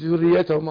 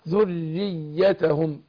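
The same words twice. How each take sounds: First: The doubled consonants are run through without lengthening. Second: The doubled consonants are clearly held and lengthened. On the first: The speaker calls it wrong. "مش ذريتهم على طول" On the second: The speaker calls it right. "فقول ذريتهم"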